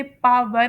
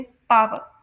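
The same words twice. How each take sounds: First: पावर with an American sounded final r; American pronunciation. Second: पावर with a British silent final r; British pronunciation. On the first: Teacher demonstrates American English, American pronunciation. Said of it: "American English में इसे पावर". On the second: Teacher contrasts British English, British pronunciation. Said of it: "British English में पावर". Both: Shown as a demonstration.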